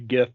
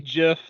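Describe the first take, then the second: First: The word starts with a hard G sound. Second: The word starts with a soft J-like sound. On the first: "other people say GIF because it's a hard G" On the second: "I say GIF"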